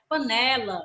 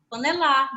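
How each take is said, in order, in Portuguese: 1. A tônica está na sílaba do meio. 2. A tônica está na última sílaba. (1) "A gente chama de panela" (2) "se for lá, eu vou chamar a palavra de panelar"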